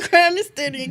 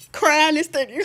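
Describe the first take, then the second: First: High, loud, breaking into a laugh; laughing exclaim; laughing repeat. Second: High and loud, half laughing; loud rueful exclaim. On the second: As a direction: throw it out in disbelief. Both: Real, not acted.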